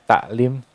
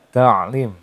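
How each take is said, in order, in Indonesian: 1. Konsonan tengahnya adalah bunyi hamzah yang ringan. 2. Konsonan tengahnya adalah bunyi tenggorokan yang dalam. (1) "taklim itu masih menggunakan huruf hamzah" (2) "Itu penggunaan uh, penempatan suara ain yang benar"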